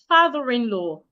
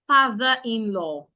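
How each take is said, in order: First: The final r runs straight into the next vowel. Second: The words are kept apart without a linking r. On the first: The speaker calls it right. "So I would link both" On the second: The speaker calls it wrong. "instead of"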